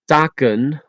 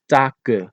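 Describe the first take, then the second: First: The word ends with a clear n sound. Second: The word ends in a vowel without n.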